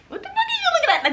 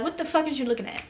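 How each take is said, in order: First: Very high, fast squeal with laughter; shrieky pretend challenge, laughing and rushed; mock confrontation. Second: Muttered mock challenge, kept quiet; imagined confrontation. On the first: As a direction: blurt it out in a hammed-up squeaky voice. Imagined confrontation, repeated much higher. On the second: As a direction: say it under your breath, as if rehearsing a comeback. Imagined confrontation, first take.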